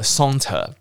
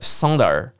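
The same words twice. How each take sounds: First: The final r sound is dropped. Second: The final r sound is clearly pronounced. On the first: "那你今天不想卷舌saunter" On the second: "所以你要卷舌saunter"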